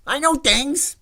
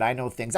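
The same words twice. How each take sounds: First: High, loud mock outburst; hammed-up high-pitched insisting; Fredo impression. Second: Said in the usual way. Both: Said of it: "right after he said".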